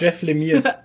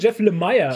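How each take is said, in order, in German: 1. Der Nachname endet so, wie 'Lemur' klingt. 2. Der Nachname endet so, wie 'Meyer' klingt. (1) "Der heißt Lemire" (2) "ganz viele sagen Jeff Lemire"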